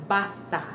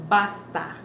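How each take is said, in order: No difference in how they are said.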